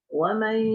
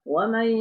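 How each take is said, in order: The two takes are said the same way.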